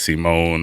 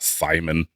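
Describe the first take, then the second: First: The name is said like Simone. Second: The name is said like Simon. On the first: The speaker calls it right. "I want to say it's Simone" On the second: The speaker calls it wrong. "It's not Simon"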